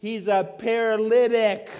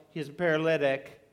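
First: Higher and louder, with paralytic stressed; mock crowd insistence. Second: Said in the usual way. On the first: Bystanders telling Jesus the obvious, a mock exasperated insistence.

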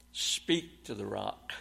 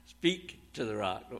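First: Slow, deliberate "Speak to the rock" with a chuckle; quoting God's command, slow. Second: "Speak to the rock" said softly through a laugh; chuckling repeat. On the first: Preacher to congregation, quoting God's command slowly. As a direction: lean on the words "Speak to the rock". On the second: Preacher to congregation, amused repeat of God's command. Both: Shown as a demonstration. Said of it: "What does God say".

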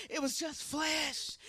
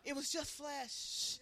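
First: Louder. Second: Quiet. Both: Shown as a demonstration.

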